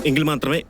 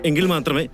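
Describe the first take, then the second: No difference in how they are said.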